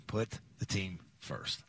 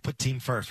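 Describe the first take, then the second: First: "Put the team first" slow and much softer; "Put the team first" dropped low and slow; slow emphatic. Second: Said in the usual way. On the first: Shown as a demonstration.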